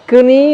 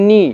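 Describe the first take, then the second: First: "কনি" with the k sounded, raised pitch; "কনি" said as "k-nee"; wrong pronunciation. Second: "নি" starting on n; silent k. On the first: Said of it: "তো আরও বলা যাবে না". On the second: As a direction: say "নি" as "nee", no k. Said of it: "কে silent রয়েছে". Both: Shown as a demonstration.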